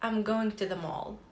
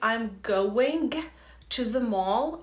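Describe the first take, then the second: First: The g at the end of going is barely heard. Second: The g at the end of going is fully pronounced. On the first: "with a very slight g sound" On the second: "instead of saying"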